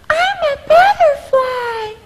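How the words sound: A high voice made soft and light.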